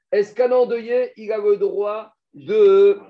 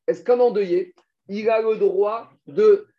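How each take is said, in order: First: Louder, very slow, drawn out; emphatic repeat. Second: Said in the usual way. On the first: Shown as a demonstration. Teacher pressing the class for an answer, louder and slow. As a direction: lean hard into the repeated question, slowly.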